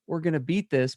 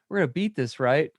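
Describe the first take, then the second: First: It sounds like a sincere, confident declaration. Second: It sounds like a scared, uncertain question.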